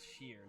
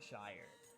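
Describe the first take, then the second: First: The vowel sounds like the one in beer. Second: The vowel sounds like the one in fire. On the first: The speaker calls it right. "Apparently, it's Shear" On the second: The speaker calls it wrong. "not Shire"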